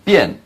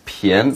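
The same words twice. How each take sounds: First: The syllable is said without a rising tone. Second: The syllable is said with a rising tone. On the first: It is the reading used in the word for convenient. "this character is also pronounced 便, as in 方便" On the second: It is the reading used in the word for cheap. "second tone"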